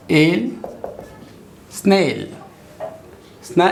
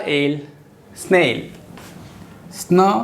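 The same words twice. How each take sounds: The two takes are said the same way.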